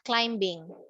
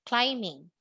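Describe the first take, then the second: First: The b sound is pronounced in the word. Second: The b sound is silent in the word. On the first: The speaker calls it wrong. "not climbing" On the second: The speaker calls it right. "It's silent B"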